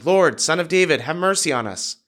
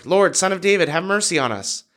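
First: Higher-pitched plea, only lightly projected; mild raised cry. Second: Clearly higher, lightly projected plea; mild shout, more insistent. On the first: Blind men calling to Jesus from the roadside, mild shout. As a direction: call out as a narrator voicing a shout. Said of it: "they began shouting". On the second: Blind men persisting over the crowd, mild insistent shout. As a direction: lift the pitch into an understated narrated shout. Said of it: "they only shouted louder". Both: A narrator's reading.

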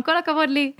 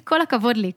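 First: "כל הכבוד לי" sung out higher, playfully pleased with herself; mock self-praise. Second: Said in the usual way. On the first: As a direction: cheer yourself on like a joke after the dishes. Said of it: "אני אומרת בקול רם". (שבח עצמי מתבדח ומוגבה) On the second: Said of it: "יש לנו קטע להגיד".

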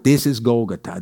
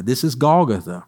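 First: Lightly imitated Israeli accent, low; hint of an Israeli accent on Golgotha. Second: Said in the usual way. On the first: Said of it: "my friend Edon's accent". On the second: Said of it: "my friend Edon's accent when he says".

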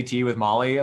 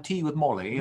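First: Said in the usual way. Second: Put-on tea with Molly in a playful British accent. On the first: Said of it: "this British accent". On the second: Host playing at British tea talk, mock British accent. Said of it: "like, this British accent".

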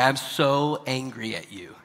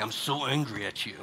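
First: Slow, eyebrows-lifted mock anger; happy-eyed anger. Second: Low, understated grumpy anger; mock anger. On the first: Parent showing that happy eyes change the sound, lightened mock anger. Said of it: "It changes how you say something". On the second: Parent showing how grumpy eyes sound, mild mock anger. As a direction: grumble it low, as a demo of anger. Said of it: "it doesn't sound like". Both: Shown as a demonstration.

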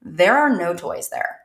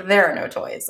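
First: Put-on slow flat deadpan child. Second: Put-on deadpan repeat of the kid's line; flat and toneless, no lift at all. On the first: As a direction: say it slow and completely flat, like a bored kid. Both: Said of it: "In this very flat".

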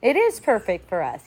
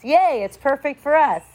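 First: Said in the usual way. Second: Bright fake cheer on yay; mock cheer. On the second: Shown as a demonstration. Teacher mocking the ego's fake cheer, sing-song yay. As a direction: chirp the yay like a hollow celebration.

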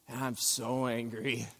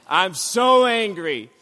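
First: Low, hushed first take of so angry; quiet. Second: Slow, louder so angry with weight on so. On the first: To the congregation, quietly admitting anger. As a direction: say it softly, holding it in. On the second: To the congregation, anger now spilling out. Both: Shown as a demonstration.

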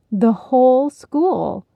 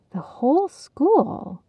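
First: Slow, firm confirmation; Penny confirming the news, slow and sure. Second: Slow, higher awed question; in wonder. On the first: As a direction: state it with certainty. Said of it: "Penny confirmed". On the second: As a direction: breathe it in amazement. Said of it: "Heidi echoed in wonder". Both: Acted.

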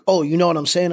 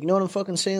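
First: Said in the usual way. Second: "fucking" slipped casually into the question; softer, casual question with "fucking" as filler; F-word as filler. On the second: Shown as a demonstration. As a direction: toss "fucking" in as a quick filler word before "saying". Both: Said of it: "Instead of saying".

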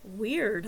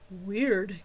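First: Said in the usual way. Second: Weird said low and deep. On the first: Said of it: "odd sound of my voice". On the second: A narrator's reading. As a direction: echo Weird in a deep male voice. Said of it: "came a deep voice behind me".

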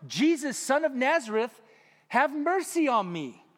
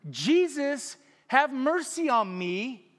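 First: Higher and louder plea, slowing on mercy; crying out. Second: Louder, slower, drawn-out plea; crying out louder. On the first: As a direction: call out desperately for help. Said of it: "began to cry out". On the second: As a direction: call out even harder than the first time. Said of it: "cried out all the louder". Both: A narrator's reading.

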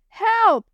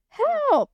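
First: High, loud panicked scream; screaming for help. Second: Even higher, shrieking panic; screaming for help, higher. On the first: Girl facing oncoming truck, screaming in panic. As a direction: scream in terror. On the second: Girl facing oncoming truck, shrieking higher. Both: Acted. Truck coming straight at her.

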